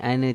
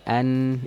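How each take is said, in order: First: The final consonant bounces into a short vowel. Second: The final consonant is held without a vowel. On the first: The speaker calls it wrong. "jangan ane" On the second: The speaker calls it right. "tapi an"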